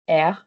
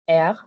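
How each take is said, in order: First: The r is made at the back of the throat. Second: The r is made at the back of the throat.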